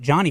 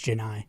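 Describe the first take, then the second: First: The name sounds like Johnny. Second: The name sounds like Janai. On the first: The speaker calls it wrong. "we pronounced it Johnny for years" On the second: The speaker calls it right. "eventually he said, it's Janai"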